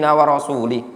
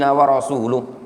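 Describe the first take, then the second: First: The last word ends with an i vowel. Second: The last word ends with a u vowel. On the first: The speaker calls it wrong. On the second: The speaker calls it right.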